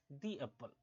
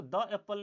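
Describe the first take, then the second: First: दी said "dee" before एप्पल. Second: द said "duh" before एप्पल; wrong THE, "duh". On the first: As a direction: say दी with a long ee, lower. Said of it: "इसलिए दी एप्पल बोला जाएगा". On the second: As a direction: say द with a short open vowel. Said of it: "इसको द एप्पल नहीं बोलेंगे". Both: Shown as a demonstration.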